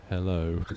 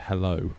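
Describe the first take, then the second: First: Imitated creepy text-to-speech hello, drawn out; creepy little voice. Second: Said in the usual way. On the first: Streamer mimicking a donation's text-to-speech, creepy little voice. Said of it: "the creepy little voice would just go". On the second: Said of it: "he'd just send the word".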